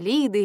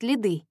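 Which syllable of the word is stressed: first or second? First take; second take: first; second. First: The stress is on the first syllable. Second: The stress is on the second syllable. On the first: The speaker calls it wrong. "начальник делает ударение на первый слог" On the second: The speaker calls it right. "правильно произносить «Лиды»"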